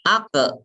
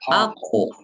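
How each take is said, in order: First: The final echo sounds thin and light. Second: The final echo sounds thick and deep. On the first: The speaker calls it wrong. "jangan gini" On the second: The speaker calls it right. "Jadi tebal itu adalah suara di dalam mulut"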